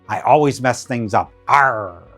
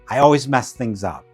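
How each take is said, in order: First: It is said in a pirate voice. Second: It is said in a normal voice.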